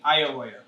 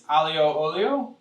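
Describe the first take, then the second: First: It is pronounced in a clipped Italian-American way. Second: It is pronounced in a standard Italian way. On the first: "we grew up saying aioia" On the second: "in Italian, it's aglio olio"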